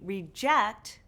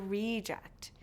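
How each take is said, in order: First: The stress is on the second syllable. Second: The stress is on the first syllable. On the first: It is used as a verb. "these two syllable verbs often stress the second syllable" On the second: It is used as a noun. "The nouns often stress the first syllable"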